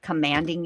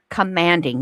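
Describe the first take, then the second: First: Said in the usual way. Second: COMMANDING set apart and louder; stress on commanding. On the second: Real, not acted. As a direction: hit "Commanding" hard as a word on its own. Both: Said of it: "You hear that?".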